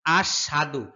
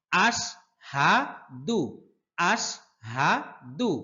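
First: আশহাদু said short, without the long vowel; আশহাদু with a clipped, unstretched a; wrong reading. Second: আশহাদু with the vowel stretched three alif long; long drawn vowel. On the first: Teacher demonstrates the wrong আশহাদু. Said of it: "এটা সম্পূর্ণ ভুল". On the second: Teacher shows students how to draw out আশহাদু. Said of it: "তিন আলিফ টেনে পড়তে হবে". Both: Shown as a demonstration.

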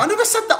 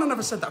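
First: High, giggly protest that he never said it; laughing denial. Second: Said in the usual way. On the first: Real, not acted. Denying to his friend on the live stream, high and laughing.

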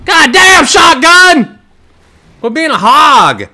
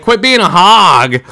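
First: Loud, high exasperated shouting; real outburst at a kill-stealing teammate; indignant yell. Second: A milder, retold version of the scolding; mock repeat of his own outburst; replaying his yell. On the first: Real, not acted. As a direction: scold the teammate hard. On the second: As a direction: quote yourself half as hot. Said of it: "and I'm like".

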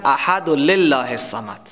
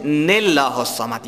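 First: احد و لله without the linking nun, lam plain; mock mistaken recitation; wrong reading. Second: لله said as nillah with the nun, slow; slow corrected tajwid; correct nun qutni. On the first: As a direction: imitate the learner who drops the nun. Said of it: "بعضی کسایی که از دور یاد گرفتن". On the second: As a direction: show the right linking nun. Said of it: "لله الصمد نیست". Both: Shown as a demonstration.

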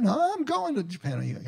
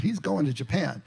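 First: High-pitched, half-hearted Scottish imitation; attempted Scottish accent. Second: Said in the usual way. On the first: Imitating a friend set on his Japan trip, attempted Scottish accent. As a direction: imitate a Scot insisting, much higher than your own voice. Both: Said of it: "I can't say it in a Scottish accent".

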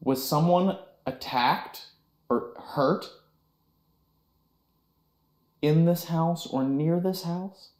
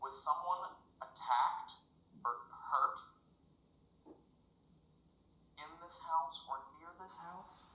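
First: Slow, clear spirit-box question; talking to a ghost. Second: Softer question to the spirit; quiet question. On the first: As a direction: ask the ghost slowly and deliberately. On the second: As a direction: ask it again, hushed. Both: Real, not acted.

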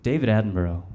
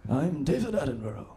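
First: Said in the usual way. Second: Lightly put-on, slightly higher documentary host voice; a hint of the hushed nature presenter introducing himself; David Attenborough impression. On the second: Comic imitating the Planet Earth guy for the crowd, lightly higher and softer. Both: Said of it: "Do you know the Planet Earth guy?".

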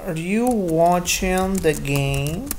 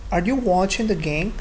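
First: Slow, drawn-out "Are you watching the game?"; slow model sentence. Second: Said in the usual way. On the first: Shown as a demonstration. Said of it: "y le digamos I N G". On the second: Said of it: "Sería la oración".

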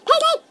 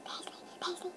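First: High, loud playful outburst; excited shout. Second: Chanted, hushed, voiceless repeating; chanted, whisper the word over and over. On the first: Vlogger overloaded by paisley pattern effect, high shout. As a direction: shout it high, as the chant peaks. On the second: Vlogger playing with paisley pattern effect, whispered chant. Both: Pretend.

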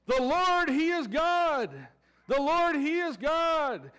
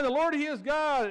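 First: Higher, louder, slow proclaiming cry. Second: Crying out. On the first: People on the mountain crying out, loud slow proclamation. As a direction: shout it out like an awed crowd. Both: Retold or imitated. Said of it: "they're crying".

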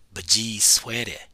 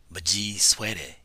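Both takes have the same delivery.

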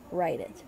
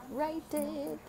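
First: Said in the usual way. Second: High, lilting urging; playful high voice. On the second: Real, not acted. Playful high repeat of phrase.

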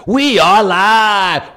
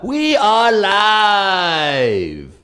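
First: High, loud, drawn-out shout; big show open. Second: High, very drawn-out call, fading; stretched show open. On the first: Host testing openers, loud stretched hype call. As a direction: belt the show name out like a hype man. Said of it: "trying different opens". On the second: Host testing openers, long drawn-out announcer call. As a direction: hold the last word long like a ring announcer. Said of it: "Anyone like any one of those?". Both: Shown as a demonstration.

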